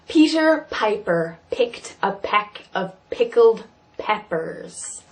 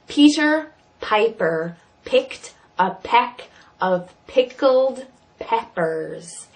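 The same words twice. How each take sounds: First: It is said at a normal pace. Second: It is said slowly with exaggerated mouth movements.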